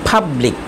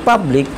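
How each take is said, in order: The two takes are said the same way.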